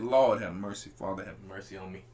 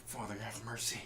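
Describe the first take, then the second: First: Low, pleading moan to the Lord; pleading prayer. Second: Low, hushed pleading; a beaten man begging mercy, low and soft; Esau's plea. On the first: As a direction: beg for mercy, head down. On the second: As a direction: whisper a desperate prayer low and soft. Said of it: "this is how Esau said". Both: Retold or imitated.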